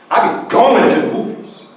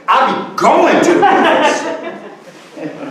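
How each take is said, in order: First: Said in the usual way. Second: Higher and very slow, each word stretched; emphatic slow delivery. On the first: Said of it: "here's the third one". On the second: Shown as a demonstration. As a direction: stretch the whole line out with a laugh. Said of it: "that's how we emphasize".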